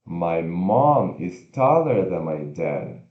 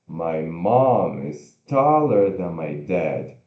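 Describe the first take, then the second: No difference in how they are said.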